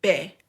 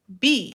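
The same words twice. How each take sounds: First: B said as Spanish "beh"; Spanish letter name. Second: B said as English "bee"; English letter name. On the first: Teacher reviews the letter for learners, Spanish B as "beh". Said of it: "Y esto es letra". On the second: Teacher reviews the letter for learners, English B as "bee". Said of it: "Se pronuncia en inglés como". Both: Shown as a demonstration.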